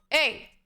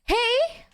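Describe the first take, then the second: First: The pitch falls at the end. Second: The pitch rises at the end.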